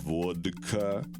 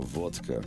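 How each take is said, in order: First: The middle consonant is a voiced d. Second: The middle consonant is a voiceless t. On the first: The speaker calls it wrong. "instead of vodka" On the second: The speaker calls it right. "you go vodka"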